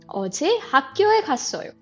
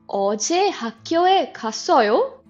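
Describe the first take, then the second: First: The voice falls at the end. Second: The voice rises at the end. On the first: It states that the speaker went to school yesterday. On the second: It asks whether the listener went to school yesterday.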